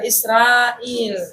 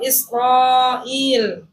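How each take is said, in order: First: The r sound is light and thin. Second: The r sound is heavy and thick. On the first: The speaker calls it wrong. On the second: The speaker calls it right.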